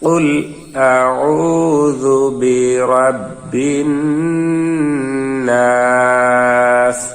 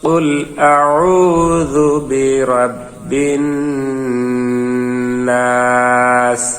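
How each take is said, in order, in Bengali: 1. শেষ শব্দটি খাঁটি 's' ধ্বনি দিয়ে শেষ হয়। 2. শেষ শব্দটি খাঁটি 's' ধ্বনি দিয়ে শেষ হয়।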